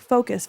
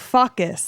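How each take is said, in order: First: The word is said with a plain American accent. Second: The word is said in a foreign accent, like a swear. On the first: "instead of saying like" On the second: "when she would say it, it should be like focus. Like it sounded like she was saying the F word"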